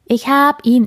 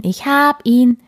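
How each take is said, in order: First: High, loud, bouncing with excitement; little bear shouting ich hab ihn; excited cub. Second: High, loud, still thrilled; excited cub. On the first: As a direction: cub spotting the star picture, thrilled. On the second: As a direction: repeat it, hopping up and down. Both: Acted. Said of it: "hopste aufgeregt auf und ab".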